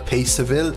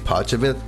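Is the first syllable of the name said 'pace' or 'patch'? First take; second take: pace; patch. First: The first syllable sounds like 'pace'. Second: The first syllable sounds like 'patch'. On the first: This is how visitors from abroad say it. The speaker calls it wrong. "if you're from abroad, you might have called it Paceville" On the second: This is how locals actually say it. The speaker calls it right. "It's actually Patchville"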